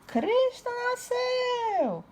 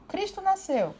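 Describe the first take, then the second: First: It is voiced like a rooster crowing. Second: It is read in a plain speaking voice. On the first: The speaker calls it right. "O galo fala" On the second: The speaker calls it wrong. "não adianta você ler"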